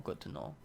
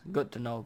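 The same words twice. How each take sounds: First: Whispered aside. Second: Said in the usual way. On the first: Shown as a demonstration. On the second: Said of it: "good to know (repeated)".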